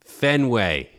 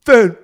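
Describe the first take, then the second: First: Boston accent. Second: A clipped, loud Boston "Fen-", broken off; Boston "Fen-", abandoned mid-word; Boston accent. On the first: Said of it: "we need all answers in a Boston accent". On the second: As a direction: start "Fen-" the Boston way and crack up. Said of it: "How do you say Fenway in a Boston accent?". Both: Shown as a demonstration.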